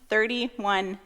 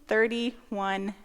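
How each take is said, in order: Both takes have the same delivery.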